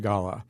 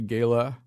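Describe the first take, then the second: First: The word uses the English pronunciation. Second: The word uses the American pronunciation. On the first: "English say gala" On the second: "originally Americans say gala"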